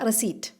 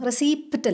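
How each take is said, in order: First: No p sound is heard before the t. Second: A p sound is heard before the t. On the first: The speaker calls it right. "പി സൈലൻ്റാ" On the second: The speaker calls it wrong. "റെസീപ്റ്റ് അല്ല"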